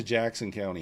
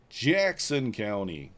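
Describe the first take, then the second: First: Said in the usual way. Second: "Jackson County" stretched slowly, each word lingered on; slow, savoured "Jackson County"; drawn out. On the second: Real, not acted. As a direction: say "Jackson County" at half speed. Repeats school name, drawn out.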